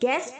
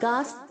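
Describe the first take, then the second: First: The vowel sounds like the a in cat. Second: The vowel sounds like the a in father. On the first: The speaker calls it wrong. "इसको गलत pronounce है बच्चों, गैस्प नहीं होगा" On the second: The speaker calls it right. "गास्प बोलेंगे"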